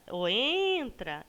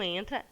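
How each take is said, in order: First: "entra" stretched on its first syllable, like a call; calling the word. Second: Said in the usual way. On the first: Shown as a demonstration. Teacher makes the stressed syllable stand out, calling "entra" with long EN. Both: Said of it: "quando a gente chama a palavrinha".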